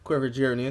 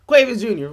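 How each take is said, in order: First: The first name sounds like quiver. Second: The first name sounds like quay-vee-us. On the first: The speaker calls it wrong. "That is not how you say it" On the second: The speaker calls it right. "It's Quavius Junior"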